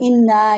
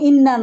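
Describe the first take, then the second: First: The word is said with a drawn-out sound. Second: The word is said short, without drawing it out. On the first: This is how Bangladeshi readers recite it. "আমরা কিন্তু ইন্না একটু টানে উচ্চারণ করি" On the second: This is how speakers in Syria or Palestine say it. "ওরা কিন্তু ইন্না নাই উচ্চারণ করে"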